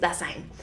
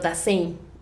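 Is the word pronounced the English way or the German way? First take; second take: German; English. First: The word is pronounced with German sounds. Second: The word is pronounced with English sounds. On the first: The speaker calls it right. "pero es Dasein. Está en alemán" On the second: The speaker calls it wrong. "Así se pronunciaría en inglés"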